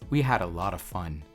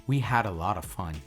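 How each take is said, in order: No difference in how they are said.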